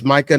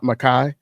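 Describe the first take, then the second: First: The name ends with a 'kah' sound. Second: The name ends with a 'kai' sound. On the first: The speaker calls it right. "It's Micah" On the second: The speaker calls it wrong. "not not not Makai"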